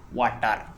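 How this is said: Every letter of the word is pronounced fully. "most Indians speak this word water as water"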